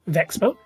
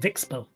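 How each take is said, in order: First: The first vowel sounds like 'eh'. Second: The first vowel sounds like 'ih'.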